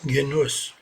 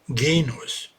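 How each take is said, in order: First: The stress is on the second syllable. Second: The stress is on the first syllable. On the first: The speaker calls it wrong. "nicht Genuss" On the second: The speaker calls it right. "Betonung auf das E, nicht auf das O"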